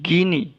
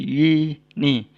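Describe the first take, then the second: First: The word starts with a hard G sound. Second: The word starts with a Y sound. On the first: The speaker calls it wrong. "bukan gini" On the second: The speaker calls it right. "tapi yini"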